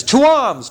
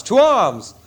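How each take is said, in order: First: To arms! shouted much higher and louder; rally the men to fight; battle cry. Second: The second call carries further off; echoing battle cry. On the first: Calling the town to fight. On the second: Repeated call to fight. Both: Acted.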